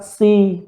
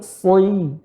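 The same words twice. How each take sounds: First: SI with a light S and pure I; light, unrounded "si"; thin si. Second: SOI with heavy S gliding into I; dark, rounded "soi"; thick soi. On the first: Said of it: "Bukan si". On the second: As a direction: say "soi" with tongue back raised. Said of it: "tapi soi". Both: Shown as a demonstration.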